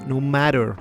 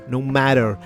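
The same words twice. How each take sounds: The two takes are said the same way.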